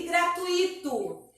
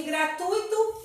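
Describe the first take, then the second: First: Gratuito with stress on I, U and I split; incorrect pronunciation. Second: Gratuito with stress on U, UI as one syllable; correct pronunciation. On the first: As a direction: say gratuito as gra-tu-I-to. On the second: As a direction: say gratuito as gra-TUI-to. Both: Shown as a demonstration. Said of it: "Gratuito é incorreto".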